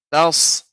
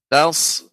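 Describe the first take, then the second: Both takes have the same delivery.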